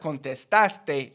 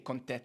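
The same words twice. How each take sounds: First: Every sound of the word is pronounced. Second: A sound is cut out of the word. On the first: "instead of contestaste" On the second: "I always say contestaste"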